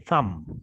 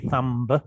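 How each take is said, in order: First: The final B sound is silent. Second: The final B sound is pronounced. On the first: The speaker calls it right. "the B is silent. we say thumb, like climb" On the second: The speaker calls it wrong. "We don't say thumb"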